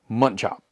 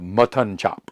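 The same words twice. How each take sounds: First: The second syllable of mutton is reduced. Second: The second syllable of mutton is fully pronounced. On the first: The speaker calls it right. "It's M U T T N, not O N" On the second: The speaker calls it wrong. "instead of"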